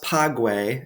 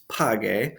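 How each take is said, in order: First: A u sound is heard after the g. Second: No u sound is heard after the g. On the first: The speaker calls it wrong. "this isn't pronounced pague" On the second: The speaker calls it right. "it's page"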